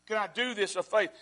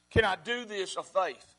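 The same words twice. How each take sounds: First: Said in the usual way. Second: Each word set down slowly and deliberately; slow it right down, let "faith" land; slow, weighed question. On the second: Shown as a demonstration. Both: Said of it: "asks the question twice".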